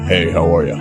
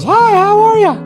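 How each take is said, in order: First: It is said in a deep voice. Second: It is said in a high voice.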